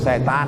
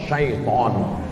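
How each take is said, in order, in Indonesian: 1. Kata itu diucapkan dua suku kata, se-tan. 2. Kata itu diucapkan tiga suku kata, sya-i-ton. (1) "orang kita payah bilang syaiton" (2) "yang betul nih ... Syaiton"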